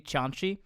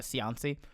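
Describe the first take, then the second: First: The name is said with Italian pronunciation. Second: The name is said with American pronunciation. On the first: "It's the Italian way I pronounced it" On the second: "Everyone just said uh"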